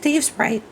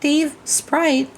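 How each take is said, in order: First: The two words run together without a pause. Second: There is a pause between the two words. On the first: The speaker calls it right. "It's just Dave Sprite" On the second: The speaker calls it wrong. "The space between the words. It's not Dave Sprite"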